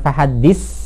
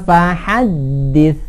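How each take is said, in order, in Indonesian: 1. Diakhiri dengan bunyi s yang mendesis. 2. Diakhiri dengan ujung lidah menyentuh gigi. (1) "jangan fahaddis. Nggak ngeses" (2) "Ujung lidah ketemu ujung gigi"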